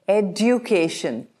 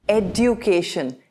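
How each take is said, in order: The two takes are said the same way.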